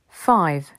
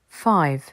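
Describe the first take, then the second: The two takes are said the same way.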